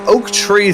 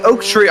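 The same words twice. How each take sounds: First: It is said in an American accent. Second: It is said in a British accent.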